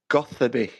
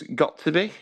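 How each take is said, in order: First: It is said as one blended word. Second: It is said as three separate words. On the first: This avoids sounding like the phrase. "she pronounced it Gothaby" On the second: This is how the name looks written. "it was Got to Be"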